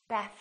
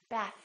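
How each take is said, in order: Both takes have the same delivery.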